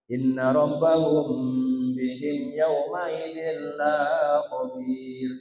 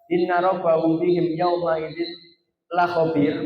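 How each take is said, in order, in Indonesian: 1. Vokal pada 'la' panjang. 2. Vokal pada 'la' pendek. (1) "kalau dipanjangkan" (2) "sesuai kaidah tajwid yang benar ... pendek"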